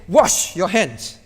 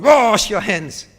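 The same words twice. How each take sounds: First: Said in the usual way. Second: Slow, firmer "Wash your hands" with weight on Wash; firm command. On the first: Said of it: "How do you say it". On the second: Shown as a demonstration. Parent commanding child, firm and slow. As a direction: lean on "Wash" like a parent laying down the law. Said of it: "Or maybe more firm".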